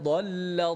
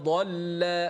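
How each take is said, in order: No difference in how they are said.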